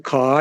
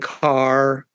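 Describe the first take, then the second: First: The final R is dropped after the vowel. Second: The final R is clearly pronounced after the vowel. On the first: This is the traditional New York way of speaking. "What's being lost is the final R" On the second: This is how younger New Yorkers now speak. "that's now becoming car and bar"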